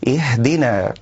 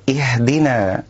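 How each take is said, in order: Both takes have the same delivery.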